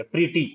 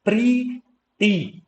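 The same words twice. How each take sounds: First: Said in the usual way. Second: प्रीटी drawn out as two separate syllables, pree, tee; very slow, split प्रीटी; vowel-sound demo. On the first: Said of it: "आई वाली sound आ रही है". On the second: Shown as a demonstration. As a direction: stretch both ee vowels in प्रीटी with a gap between. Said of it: "ये vowel sound है".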